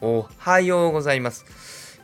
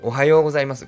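First: Pitch rises on the second mora, ha. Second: Pitch stays level, then rises from yo.

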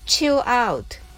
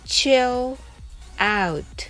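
First: The phrase is said fast. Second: The phrase is said slowly. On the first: "それでは早く発音しましょう。" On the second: "はじめはゆっくりです。"

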